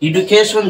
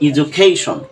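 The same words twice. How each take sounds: First: The middle consonant is a plain 'd' sound. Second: The middle consonant is a 'j' sound. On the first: The speaker calls it wrong. "যেটাকে আমরা বলি, আসলে না" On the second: The speaker calls it right. "এর সঠিক pronunciation হল"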